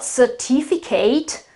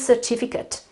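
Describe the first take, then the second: First: The ending sounds like the full word eight. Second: The ending is a weak, short 'ut' sound. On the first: The speaker calls it wrong. "Absolutely wrong" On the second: The speaker calls it right. "the right pronunciation is certificate"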